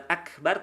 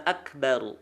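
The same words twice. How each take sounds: First: AKBAR with a plain light final R; wrong thin R. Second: AKBARU with heavy, darkened R ending; thick final R. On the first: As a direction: leave the last R of AKBAR thin. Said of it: "tapi tebalkan". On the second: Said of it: "tebalkan akbaru". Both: Shown as a demonstration.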